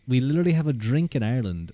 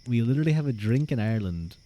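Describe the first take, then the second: The two takes are said the same way.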